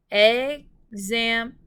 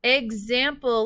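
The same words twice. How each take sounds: First: "example" in three slow, loud, separated beats; syllable by syllable. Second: Said in the usual way. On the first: Shown as a demonstration. Teacher tapping out syllables for pupils, "example" split syllable by syllable. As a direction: tap out "example" with a pause after each syllable. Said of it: "Let's tap out the syllables for example". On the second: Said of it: "Let's tap out the syllables".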